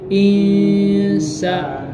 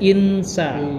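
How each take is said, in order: First: The n is blurred into a nasal sound. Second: The n is pronounced clearly and fully. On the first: The speaker calls it right. "Tapi insa. ... disamarkan ... sengau" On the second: The speaker calls it wrong. "Jadi jangan dibaca insa. Itu salah. Kalau in jadinya izhar"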